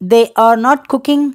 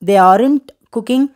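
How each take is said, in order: First: The words 'are not' are said in full. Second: The words 'are not' are contracted together.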